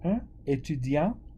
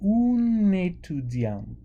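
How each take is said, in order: First: The two words are said separately, without linking. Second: The two words run together like one word. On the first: The speaker calls it wrong. "instead of saying" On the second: The speaker calls it right. "we say"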